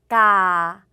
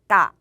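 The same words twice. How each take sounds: First: The vowel is held long and open. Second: The vowel is cut short and closed. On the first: The syllable counts as a live syllable. "까를 길게 발음을 해보고 이렇게, 이렇게 발음을 해볼게요. 까 소리가 살아있죠" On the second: The syllable counts as a dead syllable. "까를 짧게 발음해볼게요. 까 소리가 죽어요"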